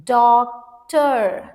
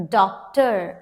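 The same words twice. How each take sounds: First: Doctor split into long "doc", pause, "tor"; syllable by syllable. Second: Said in the usual way. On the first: Shown as a demonstration. Teacher breaking the word for students, Doctor in drawn-out syllables. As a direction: stretch both halves of Doctor apart. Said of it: "then let's break it". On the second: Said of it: "let's break it".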